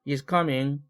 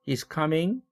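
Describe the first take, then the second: First: The pitch stays level at the end. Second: The pitch rises at the end. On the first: The sentence continues. "이럴 때 is coming 계속되죠. 지속 말미연접" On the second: It is a question. "이렇게 올렸죠. 의문문이므로 상승 말미연접이고요"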